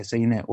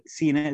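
First: سيناء opened to "saynaa", with an "ay" glide; fatha on the sin. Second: سيناء with a long "ee" after the s: "seenaa"; kasra on the sin. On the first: Teacher citing the other readers, سيناء said "saynaa". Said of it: "وقرأ الآخرون بفتحها". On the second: Teacher citing the Hijazi reading, سيناء said "seenaa". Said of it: "بكسر السين". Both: Shown as a demonstration.

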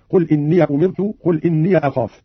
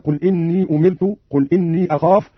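First: "إني" as inniya each time; both yas opened. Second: Said in the usual way. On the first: Shown as a demonstration. Teacher demonstrates Qalun's reading, "إني" ending in -iya. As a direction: add a short a to both "إني". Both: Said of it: "بفتح الياءين".

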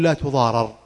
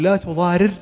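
First: "لا تضارر" unmerged with fatha, tuḍārar; passive reading tuḍārar. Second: "لا تضارر" unmerged with kasra, tuḍārir; active reading tuḍārir. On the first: Teacher contrasting the passive form, tuḍārar. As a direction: split the double r, tuḍārar. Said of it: "ولا نقول". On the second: Teacher showing the undoubled active form, tuḍārir. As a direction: split the double r, tuḍārir. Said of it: "نقول". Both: Shown as a demonstration.

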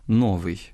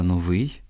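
First: "новий" stressed on "но"; wrong first-syllable stress. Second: "новий" stressed on "вий"; correct final stress. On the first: Teacher quoting a common error, "новий" stressed on "но". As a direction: misplace the stress onto "но" in "новий". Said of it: "неправильне наголошування слів". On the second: Teacher correcting the error, "новий" stressed on "вий". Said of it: "а треба". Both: Shown as a demonstration.

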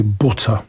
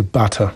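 First: Butter with a short u as in put, pʊtə; northern butter. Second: Butter with an open a sound, patə; southern butter. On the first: English teacher tells a Polish host the northern butter. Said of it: "two words butter and grass". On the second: English teacher tells a Polish host the southern butter. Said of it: "But in the south". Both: Shown as a demonstration.

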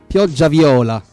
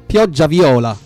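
Both takes have the same delivery.

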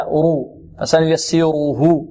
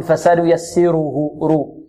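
First: رو and فسنيسره with a full, velarized ر; heavy ra. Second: فسنيسره رو with a light, thin ر; thinned ra. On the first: Teacher showing correct tafkhim, heavy ra. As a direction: thicken the ر in رو, back of tongue raised. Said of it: "التفخيم هكذا". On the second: Teacher mimicking some students' error, ra made thin. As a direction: say the ر of رو flat on the tongue, without heaviness. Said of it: "هذا ترقيق". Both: Shown as a demonstration.

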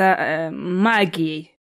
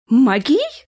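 First: Said in the usual way. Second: High, startled echo question; nervous, startled. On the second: A narrator's reading. Young wife startled to hear of magic in the castle, nervous. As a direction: jump nervously on a louder rising question. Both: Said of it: "нервно вздрогнула Джессика".

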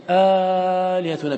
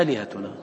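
First: آلهتنا with a drawn-out long aa; آلهتنا with badal lengthening. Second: Aalihatna without the long vowel; plain aalihatna. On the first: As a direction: stretch the opening aa of آلهتنا slowly. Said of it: "بالبدل". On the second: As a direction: say it with a short opening hamza. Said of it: "لكن لا نقول". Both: Shown as a demonstration.

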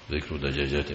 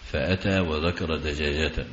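First: "ذكر دجاجة" as dhikru dajaajatin; genitive with tanwin. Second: Slow "فأتى وذكر دجاجة" as fa-ataa wa-dhakara dajaajatan; "وذكر" all in a, "دجاجة" ending -tan; accusative verb reading. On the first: Teacher reads "ذكر دجاجة" as noun phrase, dhikru dajaajatin. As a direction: say "ذكر" with i, end "دجاجة" in -tin. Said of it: "دجاجة بالجر والتنوين على الإضافة". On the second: Teacher demonstrates "فأتى وذكر دجاجة", slowly, dhakara dajaajatan. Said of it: "بالنصب والتنوين على المفعولية". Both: Shown as a demonstration.

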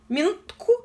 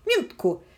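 First: Calling for a pause. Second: Settling it. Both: A narrator's reading. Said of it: "отозвалась здравомыслящая девица".

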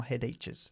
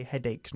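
First: "headaches" with a ch sound, hed-etches; "headaches" with ch in place of k; wrong pronunciation. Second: "headaches" ending in a hard k sound, -eiks; correct pronunciation. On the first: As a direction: mispronounce "headaches" as hed-etch-es. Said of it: "no headaches". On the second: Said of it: "headaches se pronuncia". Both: Shown as a demonstration.

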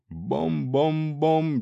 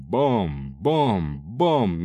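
First: Slow, singsong bom-bom-bom; imitated clanging. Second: Slow, lower bom-bom-bom; imitated clanging. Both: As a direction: mimic the ladle blows. Ladle striking the head.

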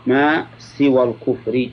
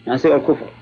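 First: Slow reading with full case ending on الكفرِ; slow formal reading. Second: Said in the usual way. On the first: Shown as a demonstration. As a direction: draw out ما, voice the final i. Reads text formally, then restates.

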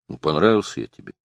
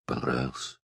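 First: Said in the usual way. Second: "Понравился" said much softer and lower, the voice sinking; a girl's voice giving way as she admits it; hoarse, dropped voice. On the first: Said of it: "голос охрип, упал". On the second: A narrator's reading. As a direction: let "Понравился" fall away, husky and quiet. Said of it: "У неё голос охрип, упал".

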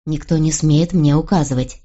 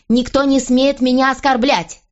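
First: Measured, contained royal warning; restrained authority. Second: High-pitched, heated counter; indignant outburst. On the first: King refuses his wife's orders, restrained authority. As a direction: lay down the law without raising the voice. King answers queen's demand. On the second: Queen answers the king's warning, indignant outburst. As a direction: fling it back in a raised pitch. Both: A narrator's reading.

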